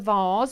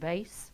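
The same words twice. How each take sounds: First: The word vase has a British pronunciation. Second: The word vase has an American pronunciation.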